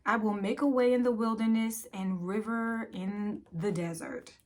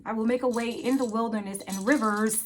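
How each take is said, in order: First: Said in the usual way. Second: "rivers" punched with a clear final s; quicker re-read, leaning on the plural "rivers"; stress on rivers. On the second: Real, not acted. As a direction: correct yourself, hitting the s on "rivers".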